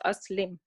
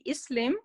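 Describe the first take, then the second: First: The word begins with an 'a' vowel. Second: The word begins with an 'i' vowel. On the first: The speaker calls it right. "helper alif will always get a sound in family four" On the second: The speaker calls it wrong. "instead of it should be Islam, according to all these rules"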